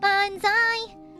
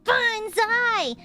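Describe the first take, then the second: First: It is said in a clean voice. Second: It is said with a gritty growl.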